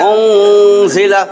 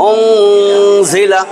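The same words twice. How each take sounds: No difference in how they are said.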